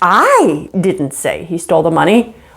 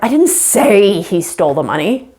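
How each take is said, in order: First: The stress falls on the word I. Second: The stress falls on the word say. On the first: Someone else said it. "you're not the one that said it, somebody else did" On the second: It was communicated another way, not spoken. "I didn't say it. Maybe I typed it down"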